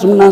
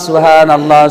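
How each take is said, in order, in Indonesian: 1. Diucapkan sangat cepat dan tidak jelas. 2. Diucapkan perlahan dengan setiap suku kata jelas. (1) "zikirnya terlalu cepat" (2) "Yang bagus bos"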